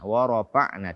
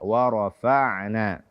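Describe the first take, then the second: First: The f has a clear breathy, airy release. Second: The f is stopped without breath, like p. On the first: The speaker calls it right. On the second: The speaker calls it wrong.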